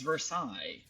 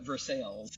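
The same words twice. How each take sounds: First: The name is said with a French pronunciation. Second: The name is said with an American pronunciation. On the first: "the French would pronounce it as Versailles" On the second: "us Americans like to call it Versailles"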